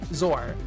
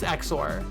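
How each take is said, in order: First: The word begins with a z sound. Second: The word begins with an eks sound. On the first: This is the speaker's own way of saying it. "I pronounce it um" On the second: This is how some other people say it. "but I know some people use Exor"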